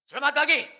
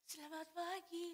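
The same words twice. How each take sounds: First: The greeting is said noticeably louder and more forcefully. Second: The greeting is said at a normal, softer volume. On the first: The person now holds a position and feels superior. "Suaranya lebih keras. ... Sekarang lebih" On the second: The person has no position of power yet.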